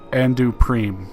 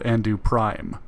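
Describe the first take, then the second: First: The second word has an 'ee' vowel. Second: The second word has an 'eye' vowel. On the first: This is how the game's announcer says it. The speaker calls it wrong. "They they pronounced it Andu Preem" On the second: This matches how the name is spelled. The speaker calls it right. "but it is blatantly spelled Andu Prime"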